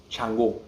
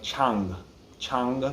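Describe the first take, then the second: First: Chango with the final o fully said; full Chango. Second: Chango cut short to Chang, final o dropped; fast clipped Chang. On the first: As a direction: finish Chango on a clear o. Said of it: "instead of it sounding like Chango". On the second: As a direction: swallow the o of Chango. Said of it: "when you say it quickly". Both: Shown as a demonstration.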